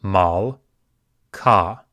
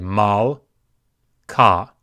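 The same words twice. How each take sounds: The two takes are said the same way.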